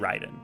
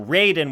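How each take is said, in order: First: The R is a quick tapped R. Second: The R is an English-style R. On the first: The speaker calls it right. "So you just say Raiden" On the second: The speaker calls it wrong. "So Raiden would be wrong"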